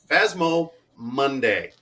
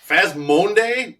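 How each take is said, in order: First: Both words are said fully and separately. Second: The shared 'mo' sound is merged into one word. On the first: The speaker calls it right. "Get it right" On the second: The speaker calls it wrong. "No, no"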